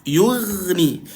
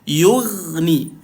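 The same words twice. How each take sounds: No difference in how they are said.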